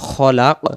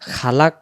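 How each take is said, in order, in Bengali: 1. প্রথম স্বরটি ছোট। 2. প্রথম স্বরটি টেনে লম্বা করে পড়া হয়। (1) "উচ্চারণ হবে খলাক" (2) "খালাক পড়লে খটা খা হয়ে যাবে"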